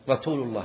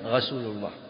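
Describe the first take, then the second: First: The s sound is said as a t. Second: The r sound is said as a gh. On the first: "السين أجعلها تاء" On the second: "أو ينطقها غينا"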